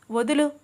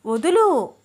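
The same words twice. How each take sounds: First: Said in the usual way. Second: వదులు snapped out louder and higher, falling hard; louder demand. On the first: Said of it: "Ram, వదులు". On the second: A narrator's reading. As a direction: insist he let go, now raising the voice. (గట్టిగా వదులు అని అరవడం)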